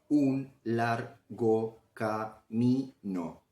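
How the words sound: Short breaks fall between every syllable. "podemos dividirla en partículas menores"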